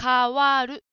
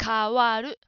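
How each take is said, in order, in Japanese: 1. 最初の音節は'ka'とはっきり言えています。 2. 最初の音節は'ka'とはっきり言えています。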